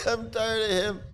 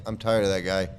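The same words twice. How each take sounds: First: High squeaky voice. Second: Said in the usual way. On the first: Shown as a demonstration.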